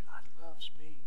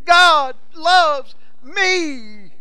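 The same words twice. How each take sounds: First: Said in the usual way. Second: Very high, loud and very slow yell; child's joyful yell. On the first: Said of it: "She knew". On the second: Retold or imitated. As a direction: stretch out the yell like a thrilled little girl. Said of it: "It had her little cross saying".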